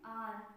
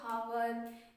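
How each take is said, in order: First: The word starts with a vowel sound. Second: The word starts with an h sound. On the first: The speaker calls it right. "सही प्रोनाउंसिएट करना है" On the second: The speaker calls it wrong. "इसको बहुत से लोग हावर या आवर पढ़ते हैं, ऐसा बिल्कुल नहीं"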